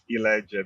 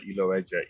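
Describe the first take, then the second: First: The O sound in the name is silent. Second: The O sound in the name is pronounced. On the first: The speaker calls it right. "The O is actually silent" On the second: The speaker calls it wrong. "I would also answer to Iloeje"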